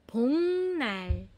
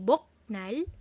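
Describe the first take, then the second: First: The first syllable ends in an ng sound. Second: The first syllable ends in a k sound. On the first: The speaker calls it right. "pero bongnal" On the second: The speaker calls it wrong. "hindi boknal"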